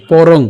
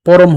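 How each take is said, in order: First: পরং said louder, ending in ng; anusvara as ng. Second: পরম closed on m; wrong m ending. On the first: Teacher shows the correct word, পরং ending in ng. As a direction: hit পরং and finish on ng. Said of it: "অনুস্বারের মতো উচ্চারিত হবে". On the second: Teacher shows the mistake, পরম ending in m. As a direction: shut the lips to end পরম on m. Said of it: "পরম হবে না". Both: Shown as a demonstration.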